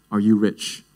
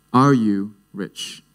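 First: Said in the usual way. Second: ARE YOU RICH at half speed; slow, weighty repeat. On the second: Acted. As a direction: ask it again slowly, spacing out the words. Question repeated slowly for weight.

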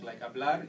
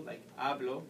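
First: Hablar with the weight on "lar"; hablar, punch the last syllable; stress on the end. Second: Hablo with the weight on "ha"; hablo, punch the first syllable; stress on the second-last syllable. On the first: Teacher contrasting stress on hablar. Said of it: "you stress the end". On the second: Teacher contrasting stress on hablo. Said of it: "you need to stress the second last syllable". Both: Shown as a demonstration.

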